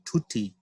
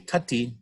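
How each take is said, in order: First: The first vowel is a long oo sound. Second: The first vowel sounds like the u in cup. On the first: The speaker calls it right. "but tuti, oo" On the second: The speaker calls it wrong. "oo wouldn't be tutti"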